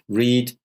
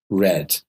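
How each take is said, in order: First: The word has a long vowel, like 'reed'. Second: The word has a short vowel, like 'red'. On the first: It is the present tense. "same word, same spelling, different pronunciation" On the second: It is the past tense. "read in the past becomes read"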